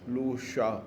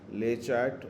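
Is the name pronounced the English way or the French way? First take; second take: French; English. First: The name is said with a French pronunciation. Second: The name is said with an English pronunciation. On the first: "if in case we have to pronounce it in French" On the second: "it's called LayChat"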